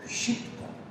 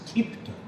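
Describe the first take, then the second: First: The word begins with an sh sound. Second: The word begins with a plain k sound. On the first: This is how it is said in Sanskrit and Hindi. "actual pronunciation in Sanskrit and Hindi they say shifta" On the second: This is how it is said in Bengali. "In Bengali pronunciation it is kipta"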